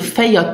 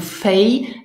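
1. Das Wort endet auf einen vollen Vokal 'a'. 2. Das Wort ist verkürzt, ohne den letzten Vokal. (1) "we reduce the feja" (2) "to fei"

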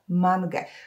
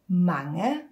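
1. Dźwięki n i g wymawia się jako osobne dźwięki. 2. Dźwięki n i g łączą się w jeden dźwięk. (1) "starają się powiedzieć osobno N i osobno G" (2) "te dwie literki muszą się troszkę ze sobą zlać"

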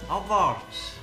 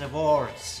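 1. Das Wort wird wie deutsch abwärts gelesen. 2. Das Wort wird wie englisch awards ausgesprochen.

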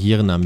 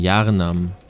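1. Der erste Vokal klingt wie 'ee'. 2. Der erste Vokal klingt wie 'ah'. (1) "nicht Jirnam" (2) "Jarnam, nicht Jirnam"

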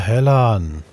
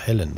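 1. Die zweite Silbe hat einen 'a'-Vokal. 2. Die zweite Silbe hat einen 'e'-Vokal. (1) "Nicht Helan" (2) "So heißt das"

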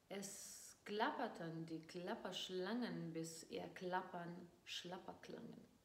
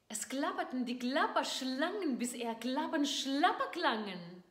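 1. Die Stimme klingt enttäuscht und niedergeschlagen. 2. Die Stimme klingt aufgeregt und begeistert. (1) "Und jetzt Enttäuschung" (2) "jetzt erstmal mit Begeisterung"

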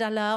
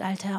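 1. Es wird mit hessischem 'aller' gesagt. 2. Es wird mit standarddeutschem 'Alter' gesagt.

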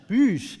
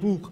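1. Das Wort wird mit einem französischen Akzent gesprochen. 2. Das Wort wird mit einem deutschen Akzent gesprochen. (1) "im Französischen" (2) "ein genuin deutsches Produkt"

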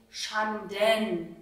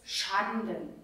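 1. Die Betonung liegt auf der zweiten Silbe. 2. Die Betonung liegt auf der ersten Silbe. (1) "und nicht Schanden, so wie es jetzt hier in den Noten steht" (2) "Man spricht es Schanden"

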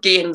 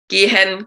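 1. Das Wort wird auf eine Silbe verkürzt. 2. Das Wort wird mit beiden Silben gesprochen. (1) "Das ist halt so Slang" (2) "statt gehen"

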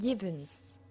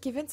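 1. Das Wort beginnt mit einem Y-Laut. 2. Das Wort beginnt mit einem harten G-Laut. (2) "die sagen ja nicht gewinnst"

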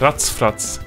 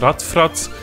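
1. Die erste Silbe endet mit einem ts-Laut. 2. Die erste Silbe endet mit einem einfachen t-Laut. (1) "also mit einem TZ" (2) "anstatt Ratzfratz"

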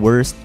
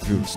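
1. Parang English na salitang 'worst' ang tunog. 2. Binibigkas ito na may patinig na parang German. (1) "kung babasahin mo kung Pinoy ka, parang worst" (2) "pagkabasa ng parang Wurst, ganun"

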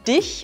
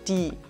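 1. Das Wort endet mit einem ch-Laut. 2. Das Wort endet auf einem Vokal.

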